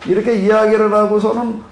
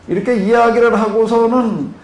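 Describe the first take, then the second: No difference in how they are said.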